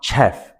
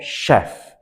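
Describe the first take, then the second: First: The word starts with a 'ch' sound. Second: The word starts with an 'sh' sound. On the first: The speaker calls it wrong. "It's actually not chef" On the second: The speaker calls it right. "the pronunciation starts with an S"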